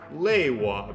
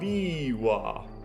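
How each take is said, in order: First: The first vowel sounds like 'ay'. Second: The first vowel sounds like 'ee'. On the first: This is the way other Roman-alphabet languages read the vowel. "would pronounce it lewa, because that's how the Romans pronounced" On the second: This is the English way of reading the vowel. "we pronounce that long vowel liwa"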